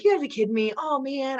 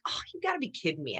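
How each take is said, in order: First: Exasperated disbelief. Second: Quick, softer muttered disbelief; hushed and quick, you gotta be kidding me; deflated disbelief. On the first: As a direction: throw your hands up at it. Exasperated at hearing the news. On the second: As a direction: let the air out of it. Deflated at hearing the news. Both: Retold or imitated.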